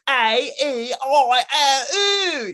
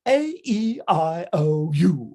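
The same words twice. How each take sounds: First: The vowels are recited in a rough, unpolished way. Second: The vowels are recited in a polished, careful way. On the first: The speaker calls it wrong. "like that. He's like, uh, horrendous" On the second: The speaker calls it right. "he's like"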